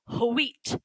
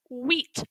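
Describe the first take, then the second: First: It begins with a breathy h before the w. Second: It begins with a plain w, no breath. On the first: "our W H combination is supposed to be pronounced like hua" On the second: "We read it like with the W first"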